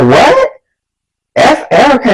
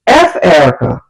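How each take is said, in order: First: Higher, disbelieving echo; mock-shocked friend, pitched up; incredulous. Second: Retold boyfriend's offhand dismissal; dismissive. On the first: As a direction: repeat it back as a shocked question. Girl repeats it in disbelief. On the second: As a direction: brush her off with a falling tone. Boy dismissing girl named, retold.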